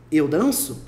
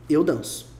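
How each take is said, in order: First: EU DANÇO rising at the end; pergunta. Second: EU DANÇO lower, falling at the end; afirmação. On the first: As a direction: lift DANÇO to ask EU DANÇO. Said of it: "Pra perguntar". (EU DANÇO com entonação de pergunta) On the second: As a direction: state EU DANÇO with a final drop. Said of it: "tá afirmando". (EU DANÇO afirmando, com voz descendente) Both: Shown as a demonstration.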